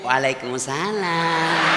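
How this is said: It is said softly, in a drawn-out, sweet way.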